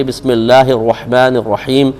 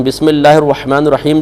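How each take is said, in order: First: "بسم اللہ الرحمن الرحیم" recited slowly, sounding the ح in الرحمن and الرحیم; articulated ha. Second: Said in the usual way. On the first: Shown as a demonstration. Cleric shows those with poor tajweed the ha in "الرحمن الرحیم", slow careful recitation. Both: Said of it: "اس میں بھی ہا نکلتی ہے".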